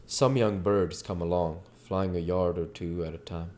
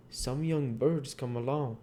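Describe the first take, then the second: First: Plain narrator read; story narration. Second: Lightly raised character read. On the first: A narrator's reading. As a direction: settle into the narrator. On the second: Acted. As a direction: read a bit higher, still in the dialogue voice. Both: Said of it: "we're back to the narration portion".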